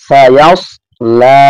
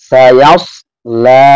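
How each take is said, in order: No difference in how they are said.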